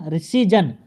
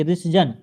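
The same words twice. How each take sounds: First: ऋषिजन with a long "ee" after the sh; wrong form demonstrated. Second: ऋषजन with the middle vowel cut short; short-vowel correction. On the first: Teacher shows the word to be rejected, demonstrating an error. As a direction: stretch the middle vowel in ऋषिजन. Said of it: "ऋषिजन नहीं". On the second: Teacher gives the short-matra form, correcting. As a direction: keep the vowel after the sh brief in ऋषजन. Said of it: "छुट्टी की मात्रा लगेगी". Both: Shown as a demonstration.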